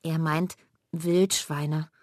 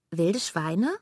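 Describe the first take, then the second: First: "Wildschweine" as one word, slow and clear; explaining slowly. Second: "Wilde Schweine" as two separate words, questioning rise; puzzled repeat. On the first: Mela explaining Bela's word to Lilly, slow and clear. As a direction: spell out "Wildschweine" slowly like a correction. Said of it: "erklärt Mela ihr". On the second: Lilly repeating Bela's odd phrase, as two words. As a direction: say "Wilde Schweine" split apart, wondering. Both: Acted.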